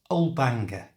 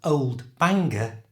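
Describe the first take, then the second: First: The D sound in old is left out. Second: The D sound in old is clearly pronounced.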